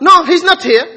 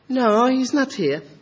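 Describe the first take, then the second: First: The voice is firm, plain and businesslike. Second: The voice is soft, sweet and inviting. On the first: The conversation is simply over. The speaker calls it right. "what is haram is softening that. But" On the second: The caller is tempted to call again. The speaker calls it wrong. "Is it the same? Then you ring again"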